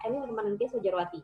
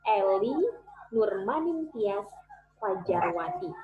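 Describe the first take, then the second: First: The name is said fast and unclearly. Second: The name is said slowly and clearly. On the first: The speaker calls it wrong. "Nggak jelas sama sekali" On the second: The speaker calls it right. "saya juga mengurangi speed saya supaya jelas"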